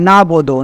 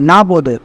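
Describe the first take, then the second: First: The throat consonant is left out. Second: The throat consonant is left out.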